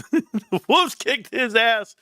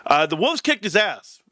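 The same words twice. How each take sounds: First: Slow, high, laughing through the words; real laughter breaking through the punchline. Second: Said in the usual way. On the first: Real, not acted. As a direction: crack up as you repeat it. Repeating punchline while laughing.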